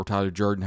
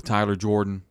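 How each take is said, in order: First: Jordan said as JUR-dun; alternative pronunciation. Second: Jordan said as JOR-dun; alternative pronunciation. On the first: Host offering the other surname version, Jordan pronounced JUR-dun. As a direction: Tyler Jordan, with "er" as in "her". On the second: Host announcing an interview, Jordan pronounced JOR-dun. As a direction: Tyler Jordan, with "or" as in "door". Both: Shown as a demonstration. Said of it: "however you say it".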